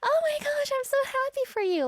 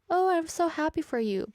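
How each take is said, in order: First: It is said excitedly, with a gasp. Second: It is said flatly, without much excitement.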